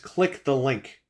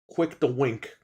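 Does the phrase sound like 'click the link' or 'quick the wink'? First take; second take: click the link; quick the wink. First: The words sound like click the link. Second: The words sound like quick the wink. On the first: The speaker calls it right. "It's click the link" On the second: The speaker calls it wrong. "I hate when people say quick"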